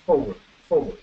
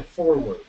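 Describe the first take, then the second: First: "forward" with the first R dropped; "forward", R not sounded; silent R. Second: "forward" with a heavy first R; "forward", R fully sounded and stressed; overstressed R. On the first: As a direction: say "forward" natively, leaving out the R. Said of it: "no suena la R". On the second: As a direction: lean hard on the R in "forward". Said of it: "Le están dando a la R". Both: Shown as a demonstration.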